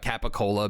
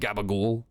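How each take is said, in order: First: All vowels are kept, ending on a vowel. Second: Vowels are dropped, ending on a consonant.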